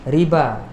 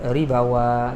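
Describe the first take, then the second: First: The word is said without any w sound. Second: A w sound is added at the end. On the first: The speaker calls it right. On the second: The speaker calls it wrong.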